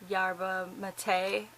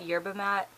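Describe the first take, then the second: First: The last word has two syllables. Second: The last word has one syllable. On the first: The speaker calls it right. "I know it's pronounced like yerba mate" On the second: The speaker calls it wrong. "I know that's not how it's pronounced"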